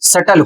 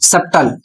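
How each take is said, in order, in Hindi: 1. t से पहले b की ध्वनि नहीं बोली जाती। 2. t से पहले b की ध्वनि बोली जाती है। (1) "सही उच्चारण सटल होता है" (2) "इसका लोग उच्चारण करते हैं सप्तल, जबकि सप्तल उच्चारण नहीं करना है"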